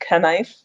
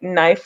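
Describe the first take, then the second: First: The word starts with a 'k' sound. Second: The word starts with an 'n' sound.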